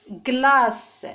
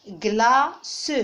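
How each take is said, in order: First: Said in the usual way. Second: "glace" broken into gla-ce; two-syllable "glace" with the final e sounded; split into syllables. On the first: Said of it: "Je vais les prononcer". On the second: Shown as a demonstration. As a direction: say "glace" in two separate beats, gla, then ce. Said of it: "je vais les découper".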